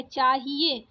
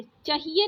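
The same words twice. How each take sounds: First: चाहिए with a long chaa; correct long first vowel. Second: चाहिए with a short first a; wrong short first vowel. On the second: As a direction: say चाहिए as "chuh-hi-ye". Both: Shown as a demonstration. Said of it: "चाहिए नहीं होता है".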